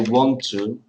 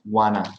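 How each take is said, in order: First: The T sounds are pronounced in full. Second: The T sounds are dropped, merging the words. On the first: "when you say want to" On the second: "the T disappear. So that's why you have wanna"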